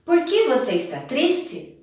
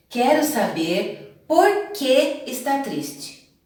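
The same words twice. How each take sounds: First: "Por que você está triste" asked directly, pitched high; direct question intonation. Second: "Quero saber por que está triste" as a slow statement with doubt, no questioning rise; indirect question. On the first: Teacher contrasting for pupils, direct question intonation on "Por que você está triste". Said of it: "Olha a entonação". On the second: Teacher showing pupils an indirect question, slow doubtful statement on "por que está triste". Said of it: "como uma frase afirmativa, mas com dúvida". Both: Shown as a demonstration.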